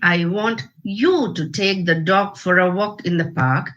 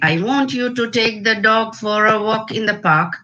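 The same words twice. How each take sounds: First: One word is given strong contrastive emphasis. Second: It is said with plain, even stress throughout. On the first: It implies a meaning beyond the literal words. "it means I want you" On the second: It means exactly what the words say. "it means exactly what the words say"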